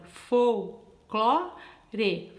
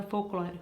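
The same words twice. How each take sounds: First: "Folclore" broken into fol, clo, re with gaps; "Folclore" said slowly in three distinct beats; syllable by syllable. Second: Said in the usual way. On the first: Shown as a demonstration. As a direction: open up for each syllable of "Folclore", one at a time. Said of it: "pronunciar a palavra folclore". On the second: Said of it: "Quantas vezes eu abro a boca".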